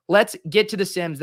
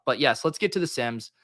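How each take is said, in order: First: Louder, higher rallying call; excited hype. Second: Said in the usual way. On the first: Shown as a demonstration. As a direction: pump up the crowd.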